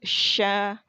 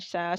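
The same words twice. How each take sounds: First: The sh sound is blown out with much air. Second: The sh sound is made with little air. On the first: The speaker calls it right. "ditiupkan lagi" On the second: The speaker calls it wrong. "Kalau cuma sha, si, su itu kurang"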